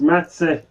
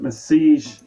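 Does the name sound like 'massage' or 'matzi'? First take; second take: matzi; massage. First: The name sounds like matzi, ending in -tsi. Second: The name sounds like the word massage. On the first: The speaker calls it right. "is pronounced Matze" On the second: The speaker calls it wrong. "I've just been corrected about another pronunciation"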